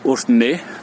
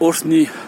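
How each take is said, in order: First: The word ends in an 'eh' vowel. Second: The word ends in an 'ee' vowel. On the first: This is the form used with diaspora Armenians. "ça va être Orthne, d'accord, donc tu remplaces le i par un e" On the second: This is the form used with Armenians from Armenia. "tu remplaces le i par un e"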